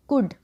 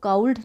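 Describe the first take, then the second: First: It has a short 'oo' vowel and no L. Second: It has an 'ow' vowel and a sounded L. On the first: The speaker calls it right. "इसको हम पढ़ेंगे कुड" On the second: The speaker calls it wrong. "इसको काउल्ड नहीं पढ़ना है"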